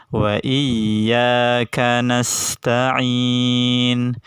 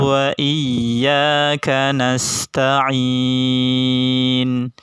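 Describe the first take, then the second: Both takes have the same delivery.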